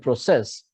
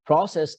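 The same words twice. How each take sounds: First: Pro-CESS, second syllable stressed; "process" as a verb, pro-CESS. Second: PRO-cess, first syllable stressed; "process" as a noun, PRO-cess. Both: Shown as a demonstration. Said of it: "but two different accents".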